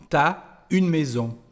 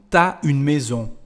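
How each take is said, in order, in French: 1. Tu et as se fondent en une seule syllabe, t'as. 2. Tu et as se fondent en une seule syllabe, t'as.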